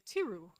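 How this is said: The name is said with a French pronunciation. "We French people, ... will say Tirou"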